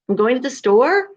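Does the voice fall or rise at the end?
rises. The voice rises at the end, like a question.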